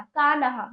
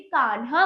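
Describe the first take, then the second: First: कान्हा in three beats, kaa-na-haa; wrong full न. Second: कान्हा as kaan-haa; no vowel between न and हा in कान्हा; correct half न. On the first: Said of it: "गलत है". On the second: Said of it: "कान्हा बोलना चाहिए था". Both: Shown as a demonstration.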